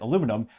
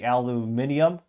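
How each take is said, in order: First: The word is said with four syllables. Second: The word is said with five syllables. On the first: This is how Americans say it. "we rightly pronounce it aluminum" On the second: This is how people in Britain say it. "as the folks across the pond would say"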